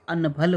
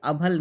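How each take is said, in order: First: अनभल as an-bhal; correct word form. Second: अभल as a-bhal, no n; wrong word form. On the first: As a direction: sound the n in अनभल. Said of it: "होता है". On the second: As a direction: leave the n out of अभल. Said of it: "नहीं होता है". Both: Shown as a demonstration.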